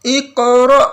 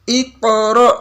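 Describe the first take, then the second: Both takes have the same delivery.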